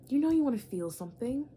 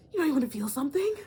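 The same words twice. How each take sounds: First: Said in the usual way. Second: Higher, louder and fast, egging them on; a fast, loud teasing nudge; louder, faster tease. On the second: Shown as a demonstration. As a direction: push it again, quicker and louder. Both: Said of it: "repeated louder".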